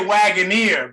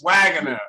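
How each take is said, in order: First: The name ends with a long 'neer' sound. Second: The name ends with a short 'ner' sound. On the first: The speaker calls it wrong. "a lot of people say Wagoneer" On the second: The speaker calls it right. "but it's Wagoner"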